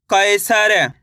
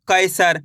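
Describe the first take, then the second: First: कैसर stretched, with an audible vowel after the final र; sounded-out reading. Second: Said in the usual way. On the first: Shown as a demonstration. Teacher blends letters for pupils, कैसर drawn out. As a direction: draw कैसर out as kai-saa-ra. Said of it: "एक अक्षर का उच्चारण करके". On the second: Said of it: "इनको direct भी पढ़ना है".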